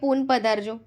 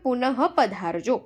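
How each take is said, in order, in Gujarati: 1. પહેલો શબ્દ અંતે કોઈ h અવાજ વગર પૂરો થાય છે. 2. પહેલો શબ્દ અંતે સંભળાય એવા h અવાજ સાથે પૂરો થાય છે. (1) "આમાં તમે એવું વાંચી શકો કે" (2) "વિસર્ગનો ઉચ્ચાર હ થવો જોઈએ"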